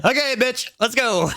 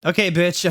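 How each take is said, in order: First: Very high comic squeak; high silly voice. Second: Lightly acted, hardly sad; a touch of mock sadness, raised pitch. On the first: Acted. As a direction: redo it absurdly high for laughs. Comic redo of the sad line. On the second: A narrator's reading. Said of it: "I said sadly".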